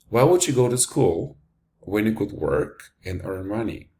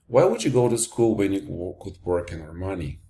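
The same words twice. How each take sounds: First: It is said with pauses between phrases. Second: It is said without pauses between phrases. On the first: The speaker calls it right. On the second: The speaker calls it wrong.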